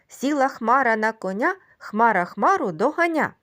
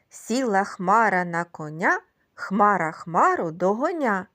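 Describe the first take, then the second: First: The rhyme is recited at a faster pace. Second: The rhyme is recited at a slower pace.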